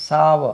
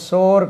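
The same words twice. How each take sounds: First: சாவ as "SAA-va", open long a; சாவ with an "ow" glide, r dropped; correct pronunciation. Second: சோர் with a long o, like "sore"; mispronounced சோர், rhyming with "floor"; wrong pronunciation. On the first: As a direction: say சாவ in two syllables, "sow-uh". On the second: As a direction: say சோர் with one long "oh" vowel. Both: Shown as a demonstration. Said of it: "இதுக்கு உச்சரிப்பு சோர் கிடையாது".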